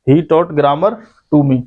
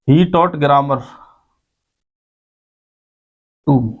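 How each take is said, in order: First: Slowly, word by word, like dictating to a class; teacher dictating the example sentence slowly; slow and clear. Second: Said in the usual way. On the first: Shown as a demonstration. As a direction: spell out each word slowly for the students. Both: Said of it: "ऐसे कर सकते हो भाई तुम इसे".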